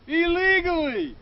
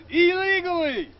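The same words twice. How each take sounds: The two takes are said the same way.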